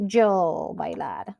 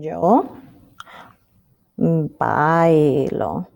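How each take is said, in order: First: Slow, low "yo bailar"; wrong-form example. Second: Low, drawn-out "bailo"; corrected form. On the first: Teacher showing what she doesn't say, slow and low. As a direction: stretch "yo", then "bailar" left unconjugated. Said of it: "So I don't say". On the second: Teacher revealing the conjugated verb, slow and deliberate. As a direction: pause after "Yo", then stretch "bailo" low. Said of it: "I add an O". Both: Shown as a demonstration.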